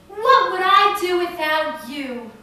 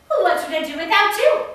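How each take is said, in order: First: It is said in the speaker's own accent. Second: It is said in an Irish accent.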